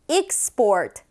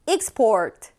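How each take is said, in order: Both takes have the same delivery.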